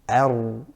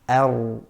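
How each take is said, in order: No difference in how they are said.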